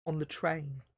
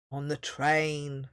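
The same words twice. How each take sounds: First: Said in the usual way. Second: Slow, lower troll rumble; a hint of a slow dull troll; lightly rumbled troll. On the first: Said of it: "repeating the earlier phrase". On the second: A narrator's reading. Troll repeats the phrase: slow low rumble. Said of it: "rumbled Onk".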